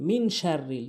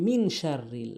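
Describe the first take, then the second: Both takes have the same delivery.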